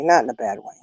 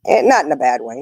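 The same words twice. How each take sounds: First: Quieter repeat of "Not in a bad way"; grandma softly repeating her point about spoiling; soft echo. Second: Said in the usual way. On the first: Real, not acted.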